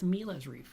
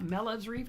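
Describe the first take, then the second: First: The first vowel is long, as in Peter. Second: The first vowel is short, as in pet. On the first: The speaker calls it right. "it's Mila's Reef because it's about me" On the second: The speaker calls it wrong. "it's not Melev's Reef"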